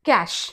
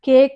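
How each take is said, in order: First: It sounds like 'cash', ending in sh. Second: It sounds like 'cake', ending in a k. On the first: The speaker calls it right. "ఇక్కడ అది కాదు, క్యాష్" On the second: The speaker calls it wrong. "కేక్ అని కానీ ఏదో ఒకటి అంటాం"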